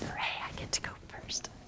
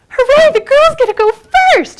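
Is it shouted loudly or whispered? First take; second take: whispered; loudly. First: It is said in a whisper. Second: It is said very loudly and excitedly.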